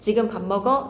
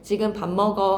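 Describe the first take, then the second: First: The pitch rises at the end. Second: The pitch falls at the end. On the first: It asks a question. "의무문입니다" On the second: It states a fact. "끝을 내리면 병서문"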